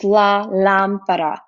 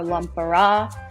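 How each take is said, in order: First: The stress is on the first syllable. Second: The stress is on a later syllable. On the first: The speaker calls it right. "the accent mark is on the A, the first A in this word. So it's pronounced la lámpara" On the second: The speaker calls it wrong. "not lampara or lampara"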